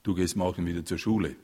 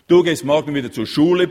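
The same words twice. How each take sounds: First: Suppressed anger. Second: Higher, much louder furious roar; bellowing father. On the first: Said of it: "bebten vor mühsam im Zaum gehaltenem Zorn". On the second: Father bellowing at his son, furious roar. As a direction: roar the order at your son. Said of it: "brüllte der Vater". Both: A narrator's reading.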